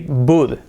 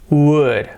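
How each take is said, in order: First: The word begins with a B sound. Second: The word begins with a W sound. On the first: The speaker calls it wrong. "if we close our mouth, we say bud" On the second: The speaker calls it right. "we have to leave open our throat and our mouth"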